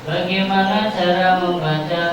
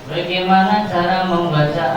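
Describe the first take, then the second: Both takes have the same delivery.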